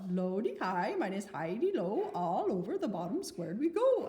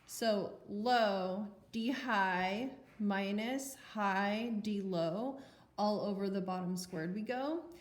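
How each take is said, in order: First: It is said in a mock Swedish accent. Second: It is said in a normal accent.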